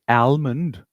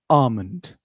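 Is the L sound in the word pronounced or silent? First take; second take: pronounced; silent. First: The L sound is pronounced in the word. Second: The L sound is silent in the word. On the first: The speaker calls it wrong. "don't say almond" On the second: The speaker calls it right. "say almond. L is silent"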